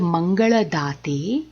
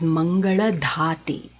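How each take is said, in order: First: The d sound is plain, without a breath. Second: The d sound is aspirated, with a breath. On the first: The speaker calls it right. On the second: The speaker calls it wrong.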